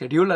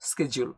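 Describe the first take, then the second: First: The word begins with an 'sh' sound. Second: The word begins with an 'sk' sound. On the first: The speaker calls it wrong. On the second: The speaker calls it right.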